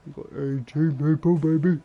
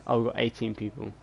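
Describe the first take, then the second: First: Louder, higher hyped-up cheer; excited. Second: Said in the usual way. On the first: Real, not acted. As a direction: celebrate it out loud. Repeats the count, hyped up.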